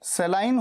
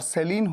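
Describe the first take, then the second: First: The second syllable sounds like 'line'. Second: The second syllable sounds like 'leen'. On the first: This is the British pronunciation. "सेलाइन होती है UK pronunciation, British pronunciation" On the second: This is the American pronunciation. "सेलीन होती है US pronunciation"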